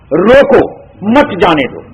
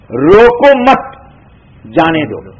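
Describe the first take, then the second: First: The pause comes after 'roko'. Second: The pause comes after 'mat'.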